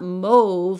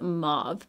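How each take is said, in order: First: The vowel is a long 'oh', rhyming with stove. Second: The vowel is an open 'ah' sound. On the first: "mauve like that rhymes with stove" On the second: "we say the A U like the ah sound"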